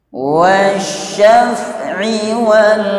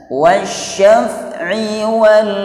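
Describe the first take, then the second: The two takes are said the same way.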